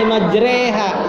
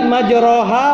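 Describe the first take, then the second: First: The second syllable has a front 'e'-like vowel. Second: The second syllable has a back 'o'-like vowel. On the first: This is the special reading actually used in recitation. "Cuma kita bacanya dibacanya" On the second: This is the original, basic reading. "Sebenarnya bacanya aslinya"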